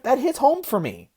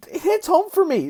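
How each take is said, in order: First: Said in the usual way. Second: "It hits home for me" said higher, landing hard on "for"; heartfelt repeat, higher and pushed; emphatic repeat. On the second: Real, not acted.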